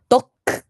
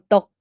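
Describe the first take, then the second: First: The word ends with an audible released k. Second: The word ends abruptly with no released k. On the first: The speaker calls it right. "크까지 해야 된대요" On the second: The speaker calls it wrong. "덕을 덕이라고 하면 안 되고"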